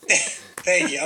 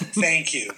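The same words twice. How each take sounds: First: Said in the usual way. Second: Words broken by laughter; laughing thanks. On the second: Real, not acted. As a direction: thank them through a real laugh. Laughing thanks after friend's joke.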